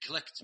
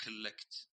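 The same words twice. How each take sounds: First: Collect with a single light L and a rising end; correct pronunciation. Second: Collect with a stressed, doubled L; doubled-L mistake. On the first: Shown as a demonstration. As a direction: say collect without doubling the L. (collect بلام خفيفة بدون شدة) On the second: Retold or imitated. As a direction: imitate the common error, leaning on the L in collect. (collect بلام مشددة مثل الغلط الشائع) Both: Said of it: "ما في شدة بالإنجليزي".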